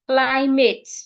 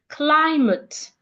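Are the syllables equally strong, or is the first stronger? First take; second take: equal; first stronger. First: Both syllables are said with equal energy. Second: The first syllable is louder and longer. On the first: The speaker calls it wrong. "with the same energy. that is wrong" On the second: The speaker calls it right. "say the first syllable louder, longer, and clearer"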